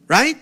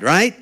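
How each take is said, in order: First: Right? pitched up high, rising hard; emphatic right. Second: Said in the usual way. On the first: Real, not acted. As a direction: demand a yes with Right?. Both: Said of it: "repeated rhetorical right".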